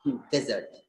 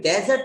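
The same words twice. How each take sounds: First: The first syllable has a short 'dih' vowel. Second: The first syllable has an open 'deh' vowel. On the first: The speaker calls it right. "हमें बोलना है डी" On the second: The speaker calls it wrong. "डे बोल देंगे तो गलत हो जाएगा"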